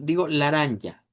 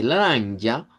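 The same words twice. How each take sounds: First: "laranja" with open Spanish As; Spanish-style "laranja". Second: "Laranja" with centralized As; Portuguese "Laranja" with a sung tune. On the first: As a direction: say "laranja" as a Spanish speaker would. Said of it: "si yo lo digo con la A del español". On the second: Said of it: "cuando lo decimos con la A centralizada". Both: Shown as a demonstration.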